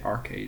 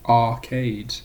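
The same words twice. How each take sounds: First: The r after the first vowel is pronounced. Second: The r after the first vowel is dropped. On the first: This is how an Irish speaker says it. "I'd say arcade because I have a Rotogore" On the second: This is how an English person says it. "if a British person or an English person says"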